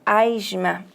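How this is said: The s sounds like zh, as in Rio. "como é o caso do carioca"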